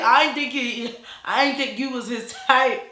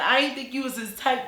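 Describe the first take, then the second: First: High, loud exaggerated imitation breaking toward laughter; mock brother voice. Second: Lightly put-on voice, somewhat high; milder brother imitation. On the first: Brother remarking on her looks, hammed-up mock voice. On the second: Brother remarking on her looks, lightly imitated. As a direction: repeat the brother with the squeal toned down. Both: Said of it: "he ain't talking like that".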